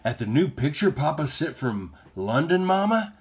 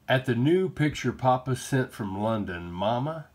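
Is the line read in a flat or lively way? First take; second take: lively; flat. First: It is read lively, with more feeling. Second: It is read flatly, with little feeling. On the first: The speaker calls it right. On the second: The speaker calls it wrong.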